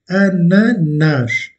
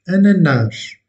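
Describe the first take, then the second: First: "Ananas" drawn out slowly as "a-na-NASH", last syllable stressed; slow Portuguese model. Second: "ananas" with a final "nás" ending in a voiced "zh"; Portuguese plural. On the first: Teacher to French learners, modelling the final-syllable stress. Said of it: "l'accentuation est faite sur la dernière syllabe". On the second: Teacher to French learners, giving the plural form. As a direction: stress the last syllable of "ananas", plural form. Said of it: "Donc pluriel". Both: Shown as a demonstration.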